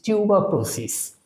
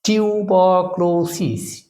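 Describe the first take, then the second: First: Said in the usual way. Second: tuberculosis slowly, each syllable held. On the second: Shown as a demonstration. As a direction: stretch টিউ-বার-ক্লো-সিস evenly. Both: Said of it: "syllable ভাগ করে এটাকে যদি আমরা উচ্চারণ করি".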